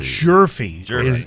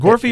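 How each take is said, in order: First: The name begins with a J sound, like Murphy. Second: The name begins with a hard G and 'or'. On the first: The speaker calls it right. "Jerfy is the right way to say it" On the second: The speaker calls it wrong. "Am I saying it right?"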